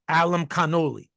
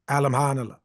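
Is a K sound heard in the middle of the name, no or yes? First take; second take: yes; no. First: A clear K sound is heard mid-name. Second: No K sound is heard mid-name. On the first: The speaker calls it wrong. "He said Alam Kanoli" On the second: The speaker calls it right. "And you don't pronounce the K in the middle. Correct"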